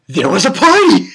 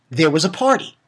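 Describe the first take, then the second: First: Loud mock-excited announcement; hyped up. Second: Said in the usual way. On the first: Shown as a demonstration. Vlogger comparing two anime parties, loud hyped repeat. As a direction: belt it out with comic emphasis on "party". Same words hyped up for contrast.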